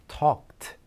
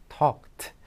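The two takes are said the same way.

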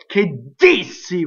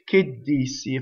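First: The d itself is hit hard and forcefully. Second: A short silent gap comes before the d. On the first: The speaker calls it wrong. "in no way do we go che dissi, right, with that strong D" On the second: The speaker calls it right. "you're mildly excited, you say che dissi"

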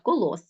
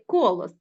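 First: The stress is on the last syllable. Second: The stress is on the first syllable. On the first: The speaker calls it right. "наголос ставимо на останній склад" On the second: The speaker calls it wrong. "а не колос"

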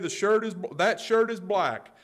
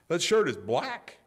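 First: It is said as a plain, neutral statement. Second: It is said in a disbelieving, incredulous tone. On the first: The speaker is simply stating a fact. "That's a simple statement" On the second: "That's incredulism"

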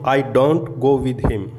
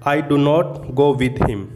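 First: The words 'do not' are contracted to 'don't'. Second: The words 'do not' are said in full.

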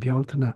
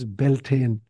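First: The word is said with a Gaelic pronunciation. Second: The word is said with an anglicized pronunciation. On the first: The speaker calls it right. "but in Gaelic it's Bealtaine" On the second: The speaker calls it wrong. "It's often mispronounced in English as Beltane"

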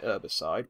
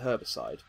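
First: The word begins with a vowel, no h sound. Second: The word begins with an audible h sound. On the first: This is how it might be said in America. "It would make sense for them to pronounce it herbicide" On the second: This is the speaker's own usual pronunciation. "We definitely pronounce it herbicide"

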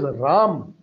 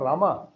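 First: The word ends on the consonant, no final vowel. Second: The word ends with an added final 'a' vowel. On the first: The speaker calls it right. "It is Ram" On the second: The speaker calls it wrong. "it is not Rama"

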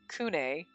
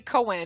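First: The first vowel sounds like 'oo'. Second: The first vowel sounds like 'oh'. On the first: The speaker calls it right. "it's supposed to be like Kune" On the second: The speaker calls it wrong. "I say Cohen"

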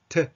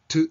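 First: The vowel is open with the lips unrounded. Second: The vowel sounds like a small Japanese u. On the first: "顎を下げて口を丸めずに発音する" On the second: "小さなカタカナのうだと考えると"

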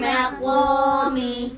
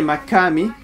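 First: The q is heavy and full-mouthed. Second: The q is light and empty-mouthed. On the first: The speaker calls it right. "So make the qaw full mouth" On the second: The speaker calls it wrong. "Don't say makami"

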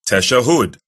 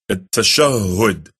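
First: The word begins directly with a 'ta' sound. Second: The word begins with an 'at' sound. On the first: The speaker calls it wrong. "who pronounce this incorrectly. They say tashahhud" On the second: The speaker calls it right. "the correct pronunciation of it is at-tashahhud"

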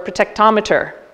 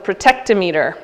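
First: The word is said with an Australian accent. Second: The word is said without an Australian accent.

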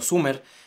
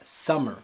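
First: The first vowel sounds like oo. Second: The first vowel sounds like uh. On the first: The speaker calls it wrong. "ahorita estás pronunciando summer" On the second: The speaker calls it right. "quieres eventualmente pronunciar summer"

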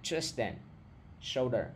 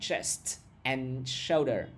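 First: The t in chest becomes d or drops. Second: The t in chest is fully pronounced. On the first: The speaker calls it right. "Nó sẽ âm T thành âm D hoặc là nó nuốt luôn" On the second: The speaker calls it wrong. "Các bạn sẽ không nghe được thành chest and shoulder"

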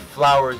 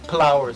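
First: The word begins with an F sound. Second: The word begins with a P sound. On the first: "you don't say flowers" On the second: "some change the F for a P"

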